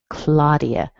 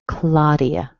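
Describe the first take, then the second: The two takes are said the same way.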